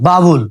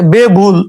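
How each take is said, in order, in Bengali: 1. প্রথম শব্দাংশে 'a' স্বরধ্বনি আছে। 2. প্রথম শব্দাংশে 'e' স্বরধ্বনি আছে।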